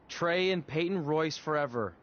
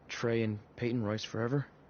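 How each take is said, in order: First: It is said loudly. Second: It is said quietly.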